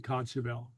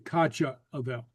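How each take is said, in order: First: The two words are run together as one. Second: The two words are kept apart, both vowels said. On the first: The speaker calls it right. "you still say kachavel" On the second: The speaker calls it wrong. "You wouldn't say kacha avel"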